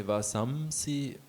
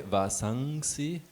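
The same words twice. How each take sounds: First: Vasamsi with an m before the si; m sound. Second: Vasangsi with an ng before the si; ng sound. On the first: Student showing the teacher the other reading, m sound in Vasamsi. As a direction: say Vasamsi, closing the lips on the m. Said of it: "the doubt is about the Anuswara". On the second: Student asking the teacher about the Anuswara, ng sound in Vasangsi. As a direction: say Vasangsi with the nasal ng of "sing". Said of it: "like ng". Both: Shown as a demonstration.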